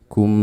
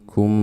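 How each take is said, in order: Both takes have the same delivery.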